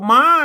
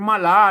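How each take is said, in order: First: It is said as one syllable. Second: It is said as two syllables. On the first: The speaker calls it right. "อ่านว่าม้านะครับ" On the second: The speaker calls it wrong. "ไม่ใช่มะลานะครับ"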